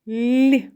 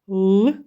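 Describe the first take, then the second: First: The l sound is soft and palatalized. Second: The l sound is hard, not palatalized. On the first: "а в слові ліс приголосний звук л вимовляється ніжно, лагідно, м'яко" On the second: "у слові лис приголосний звук л вимовляється твердо"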